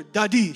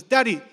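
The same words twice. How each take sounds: First: Put-on "Daddy" in an American accent, flat D; daughter's new American "Daddy". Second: Put-on "Daddy" with Nigerian accent, louder; imitating daughter's Nigerian "Daddy". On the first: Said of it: "it's no longer". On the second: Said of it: "She's losing her Nigerian accent".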